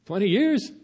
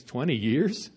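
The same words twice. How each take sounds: First: Higher, rising disbelief; as if he can't believe the offer; the second take jumps up in astonishment; incredulous. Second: Said in the usual way. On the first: Acted. Human repeating God's offer in disbelief.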